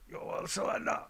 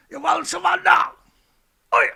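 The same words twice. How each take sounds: First: Hushed, sneering repeat of the question; mocking whisper. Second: Louder, higher mocking shout of the question; mock Trump demand. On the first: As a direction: breathe it out in mockery. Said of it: "Who talks like that?". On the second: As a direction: sneer it like a bully demanding surrender. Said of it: "Trump demands unconditional surrender".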